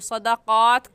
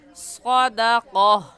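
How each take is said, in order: First: The word ends with a t sound. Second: The word ends with an h sound. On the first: The speaker calls it wrong. "सदक़ात कहना गलत है" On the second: The speaker calls it right. "सही है सदक़ह"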